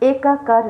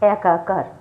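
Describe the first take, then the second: First: The first vowel is a closed e sound. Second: The first vowel is an open ae sound. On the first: The speaker calls it wrong. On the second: The speaker calls it right.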